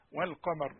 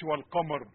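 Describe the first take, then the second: First: والقمر softly, لام clear; correct reading. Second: والقمر said badly; wrong reading. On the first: Teacher gives the right form quietly. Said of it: "احنا قلنا". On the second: Teacher warns of the error. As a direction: clip the لام in والقمر. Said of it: "ما أقولش". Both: Shown as a demonstration.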